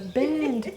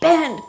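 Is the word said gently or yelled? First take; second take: gently; yelled. First: The word is said softly and warmly. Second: The word is yelled forcefully. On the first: The coin is sent love. "I have to send love" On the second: The coin is commanded harshly. "Jack would say yell"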